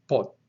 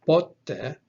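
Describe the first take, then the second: First: Pote with the accent on final TE; po-TE, leaning on the end of pote; stress on last syllable. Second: Pote with the accent on PO; PO-te, punching the start of Pote; stress on first syllable. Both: Shown as a demonstration. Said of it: "you can see that the accent is important".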